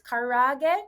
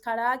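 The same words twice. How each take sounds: First: The middle consonant is an English r sound. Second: The middle consonant sounds like an l. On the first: "So it's karaage" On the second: "their pronunciation is karaage"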